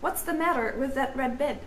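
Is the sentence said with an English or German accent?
English. It is said in a plain English accent.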